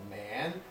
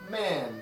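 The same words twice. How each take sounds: First: The pitch dips down and comes back up. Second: The pitch falls sharply from high to low. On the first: "it has a third tone that kind of dips a little" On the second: "And Chinese has a falling tone"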